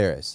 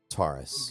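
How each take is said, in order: First: The first vowel sounds like the one in 'tare'. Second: The first vowel sounds like the one in 'tore'. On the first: This is the official pronunciation. The speaker calls it right. "So it is Terrace" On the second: This is how the speaker always said it. The speaker calls it wrong. "It's not Taurus. I've always called it Taurus"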